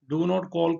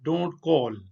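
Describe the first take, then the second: First: Do and not are said as separate words. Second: Do and not merge into one syllable, don't.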